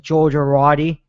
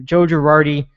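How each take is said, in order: First: "Georgia Roddy" run together as one slurred New York word for "Joe Girardi"; thick New York accent. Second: Said in the usual way. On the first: Retold or imitated. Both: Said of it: "he says it with his thick accent".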